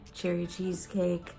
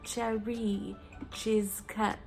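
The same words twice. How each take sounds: First: The name is said in a plain accent. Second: The name is said in a French accent.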